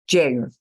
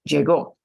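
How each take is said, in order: First: The stress is on the second-to-last syllable. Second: The stress is on the last syllable. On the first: The speaker calls it right. "second to last syllable" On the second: The speaker calls it wrong.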